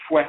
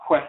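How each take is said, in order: First: "hwe" said as "fwe", f gliding into w; FW sound. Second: "hwe" with a breathed h gliding into w; HW sound. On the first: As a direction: put an f at the front of "hwe". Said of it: "F W". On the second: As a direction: say "hwe" on an h-w onset. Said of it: "But that H W sound". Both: Shown as a demonstration.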